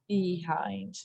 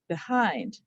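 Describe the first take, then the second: First: The first vowel is a clear, full long E. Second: The first vowel is barely heard, weakly reduced. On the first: This is said to help with spelling. "you hear the E where the E says E" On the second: This is the everyday way of saying it. "the second syllable is stressed, ... you barely hear the vowel sound there"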